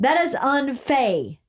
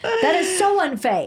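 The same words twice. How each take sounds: First: "unfae" read as spelled, slow, rhyming with fay; phonetic misspelling. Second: Laughing mock outrage. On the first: Retold or imitated. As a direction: sound out "unfae" slowly as the text spells it. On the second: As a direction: squeal "unfae" while cracking up. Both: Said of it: "F A I E".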